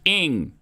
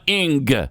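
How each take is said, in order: First: The ending is a soft ng with no g. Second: The ending has an audible hard g sound. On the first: The speaker calls it right. "It's ing" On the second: The speaker calls it wrong. "hard G on the ing sound"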